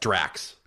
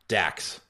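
First: An R sound follows the first D. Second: No R sound follows the first D. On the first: The speaker calls it right. "It's Drax" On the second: The speaker calls it wrong. "I said Dax"

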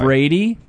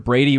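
First: The names are said slowly. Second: The names are said fast.

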